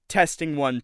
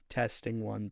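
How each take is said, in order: First: The voice is louder with slight distortion. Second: The voice is quieter and held down. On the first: "You'll notice that distortion in my voice" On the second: "you'll be able to hear my voice go down with it"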